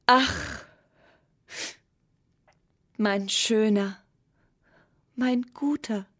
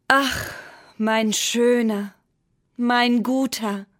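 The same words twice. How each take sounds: First: Mild tearful lament, slow; a touch of weeping, drawn out. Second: Louder, slow longing call. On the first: Moon weeping over the tiny pencil, mildly tearful. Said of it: "weinte der Mond". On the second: Moon calling to the pencil, loud and slow. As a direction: call out slowly to someone far away. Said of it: "rief der Mond". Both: A narrator's reading.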